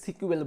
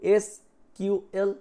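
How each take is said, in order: First: It is said as one word, sequel. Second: It is said as three separate letters. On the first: "সিকিউএল বলে দিচ্ছে" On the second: "এসকিউএল দিয়ে তুমি বলতে পারো"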